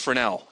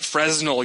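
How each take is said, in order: First: The s in the middle is silent. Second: The s in the middle is sounded. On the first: The speaker calls it right. "because it's Fresnel" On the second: The speaker calls it wrong. "if you ever pronounce it Fresnel, you'll probably get punched"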